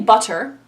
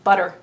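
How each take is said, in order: First: The middle consonant is a clear T sound. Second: The middle consonant is a D sound. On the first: The speaker calls it wrong. "We don't say butter" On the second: The speaker calls it right. "We pronounce it with a D"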